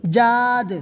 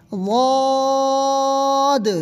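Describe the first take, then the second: First: جاد with a j and thin open aa; thin, loud-started جاد; wrong j reading. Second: واد thick and rounded, held very long; long chanted heavy واد; correct heavy dad. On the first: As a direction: say جاد light, in place of the heavy letter. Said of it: "اس طرح نہیں پڑھیں گے". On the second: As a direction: stretch واد on an even note, bounced d last. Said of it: "اس طرح پڑھیں گے". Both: Shown as a demonstration.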